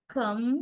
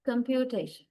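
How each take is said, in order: First: "Computation" split into four separate syllables. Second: Said in the usual way. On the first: Shown as a demonstration. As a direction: say "Computation" one syllable at a time, long pauses between. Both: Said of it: "there are so many syllables".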